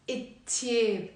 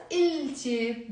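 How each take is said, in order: First: It ثياب with L turned into doubled T; silent L. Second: Il ثياب with the L sounded; L wrongly pronounced. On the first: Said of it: "This l here is not pronounced". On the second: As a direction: keep a clear L before ثياب. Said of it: "we will pronounce it not". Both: Shown as a demonstration.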